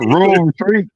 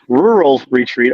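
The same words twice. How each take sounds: First: The name is pronounced in a local, reduced way. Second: The name is pronounced carefully and in full. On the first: "everybody around here" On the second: "let me pronounce that correctly"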